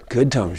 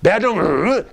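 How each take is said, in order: First: Gentle tone demo. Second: Harsh tone demo. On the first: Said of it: "we have a good tone". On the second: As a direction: say it like a scold. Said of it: "we have a bad tone". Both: Shown as a demonstration.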